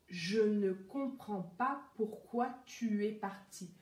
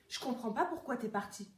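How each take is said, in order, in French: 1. Chaque mot est prononcé entièrement et séparément. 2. Les mots sont raccourcis et liés entre eux, et le « ne » est supprimé. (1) "on ne prononce pas aussi bien quand on parle dans la vie courante" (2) "Voilà comment les Français vont dire dans la vie, dans le langage parlé"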